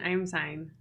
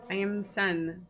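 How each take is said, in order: First: The name is said to rhyme with sign. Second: The name does not rhyme with sign. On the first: "I was gonna say sign" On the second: "are you good with that pronunciation?"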